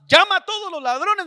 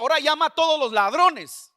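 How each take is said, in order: First: Louder, higher repeat of a divine order; insistent command. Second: Retold divine order, raised and louder; firm command. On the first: Retold or imitated. The Lord overrules the reluctant preacher, insistent command. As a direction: cut in high and loud, overruling the protest. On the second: The Lord instructs the preacher to call the thieves, firm command. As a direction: give the order high and forceful.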